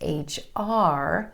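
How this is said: The stress is on the last letter. The speaker calls it right. "you want to make sure it's H R"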